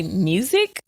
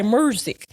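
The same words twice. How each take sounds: First: "Music?" said as MYOO-zik, questioning; "Music?" in standard pronunciation, rising. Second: "music" said Memphis-style as MUR-zik; "music" with a Memphis "ur" vowel; Memphis pronunciation. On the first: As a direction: ask "Music?" with a clean "you" vowel. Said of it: "And my kids say". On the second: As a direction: put an R in "music": murzik. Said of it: "say it like you from Memphis". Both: Retold or imitated.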